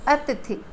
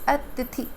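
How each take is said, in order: The two takes are said the same way.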